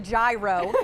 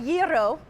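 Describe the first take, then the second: First: The word has an anglicized English pronunciation. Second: The word has a native-style, non-anglicized pronunciation. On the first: The speaker calls it wrong. "in the world of very poorly uh, spoken English" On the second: The speaker calls it right. "until today I was pronouncing it wrong"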